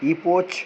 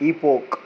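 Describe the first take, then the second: First: The word ends with a 'ch' sound. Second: The word ends with a 'k' sound. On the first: The speaker calls it wrong. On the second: The speaker calls it right.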